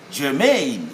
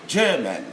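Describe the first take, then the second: First: Germane as jer-MAIN, second syllable stressed. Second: GERman, stressed on the first syllable. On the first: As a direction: lean on the long -MANE in germane. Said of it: "we stress on the second syllable". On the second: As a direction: hit GER in German, let -man drop. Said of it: "We stress on the first syllable". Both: Shown as a demonstration.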